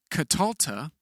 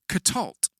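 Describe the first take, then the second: First: The schwas are voiced, ending in a vowel. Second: The schwas are silent, ending in a consonant. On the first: The speaker calls it wrong. "They are not vocally pronounced, as in Catalta" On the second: The speaker calls it right. "the schwas remain silent"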